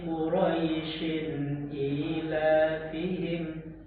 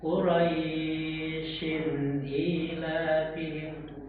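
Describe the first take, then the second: First: The vowel in Quraisyin is kept short. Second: The vowel in Quraisyin is drawn out long. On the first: The speaker calls it right. "cukup dengan sifat lim. ... begitu" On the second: The speaker calls it wrong. "Jadi dibaca panjang begitu. ... Salah"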